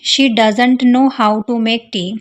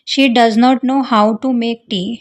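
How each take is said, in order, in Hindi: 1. Does और not जुड़कर doesn't बन जाते हैं। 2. Does और not दो पूरे शब्दों की तरह बोले जाते हैं।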